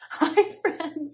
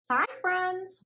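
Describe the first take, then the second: First: It is said in a calmer voice. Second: It is said in a very bright voice.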